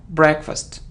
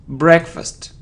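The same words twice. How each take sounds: Both takes have the same delivery.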